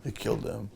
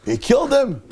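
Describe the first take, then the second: First: Low, very soft repeat; storyteller's grave, quiet aftermath; hushed shock. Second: High-pitched dramatic announcement; storyteller's high, punched reveal; shocked exclamation. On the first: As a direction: let it sink in, low and hushed. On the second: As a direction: burst out with the shocking news. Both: Retold or imitated.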